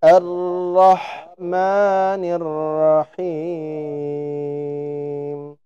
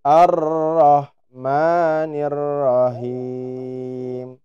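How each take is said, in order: First: "Rahim" recited with light H kecil; slow melodic chant, light H; correct small H. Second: "Rahim" recited with heavy H besar, the wrong way; slow chant showing the mistaken H; wrong big H. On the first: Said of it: "harusnya H kecil". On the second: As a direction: chant "Ar-Rahmanir Rahim" with the harsh throaty H. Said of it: "Kesalahan yang sering terjadi dibaca". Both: Shown as a demonstration.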